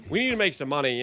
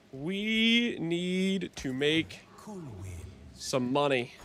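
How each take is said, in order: First: Said in the usual way. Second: Slowly spelled out, each word dragged; slow emphatic. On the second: Shown as a demonstration. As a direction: drag out every word.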